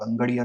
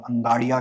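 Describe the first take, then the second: First: अंगड़िया with a short a in the second syllable; variant pronunciation. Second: अंगाड़िया with a long aa in the second syllable; variant pronunciation. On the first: Speaker offers listeners the other pronunciation, अंगड़िया with short a. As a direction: say अंगड़िया, keeping the middle a short "ga". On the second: Speaker offers listeners one common pronunciation, अंगाड़िया with long aa. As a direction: say अंगाड़िया, stretching the middle to "gaa". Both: Shown as a demonstration. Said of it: "I do not know the pronunciation".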